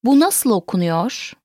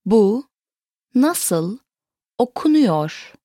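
First: Said in the usual way. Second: "Bu", "nasıl", "okunuyor", each set apart; word by word. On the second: Shown as a demonstration. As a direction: pause after "Bu" and after "nasıl". Teacher repeats it word by word.

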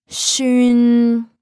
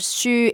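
First: "shun" stretched, louder, closing on a hummed n; long ringing n on "shun"; nasal ending. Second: Said in the usual way. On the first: Shown as a demonstration. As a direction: hold "shun" high and level into the n. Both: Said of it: "nasal version of the last word".

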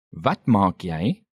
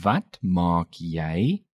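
First: Said in the usual way. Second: Slow "Wat maak jy?" with "jy" rising at the end; slow, rising question. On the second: Shown as a demonstration. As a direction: draw out each word of "Wat maak jy?", lifting "jy". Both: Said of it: "Note the rising intonation".

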